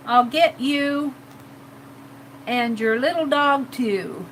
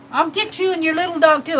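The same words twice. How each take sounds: First: Witch threat. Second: Said in the usual way. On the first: Acted. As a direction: draw it out like a wicked witch's threat. Redoing the witch line in character.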